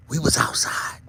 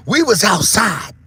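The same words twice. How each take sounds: First: Whispered, breathy hush. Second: Loud, slow shout. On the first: Vlogger hushing the point, whisper. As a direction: let it drop to a bare whisper. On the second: Vlogger driving home the point, loud slow shout. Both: Acted. Whispered then shouted repeat.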